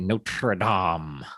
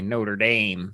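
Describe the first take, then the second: First: The name is said in a fancy way. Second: The name is said in a plain everyday way. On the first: It refers to the cathedral, said properly. "if I'm trying to sound fancy" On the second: It refers to the football team. "if I'm talking about football"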